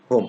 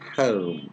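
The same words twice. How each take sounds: First: The vowel is said in the local style. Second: The vowel is said in native English style. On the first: The speaker calls it wrong. "that's basically wrongly pronounced words" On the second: The speaker calls it right. "the exact pronunciation is home"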